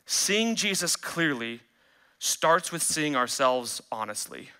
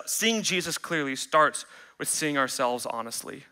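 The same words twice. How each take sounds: First: "Seeing Jesus clearly" spelled out slowly, each word weighed; slow emphatic key line. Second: Said in the usual way. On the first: Shown as a demonstration. Pastor giving the congregation the line to note, slow and deliberate. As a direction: lay it down slowly for note-takers. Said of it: "I wrote it in my notes this way so you can remember". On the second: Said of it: "I wrote it in my notes this way".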